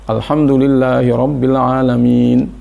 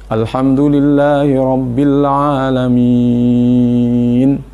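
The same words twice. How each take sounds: First: The vowel before the last sound is held two beats. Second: The vowel before the last sound is held six beats. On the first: "Boleh dibaca dua, ... itu dua saja" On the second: "Atau sampai enam"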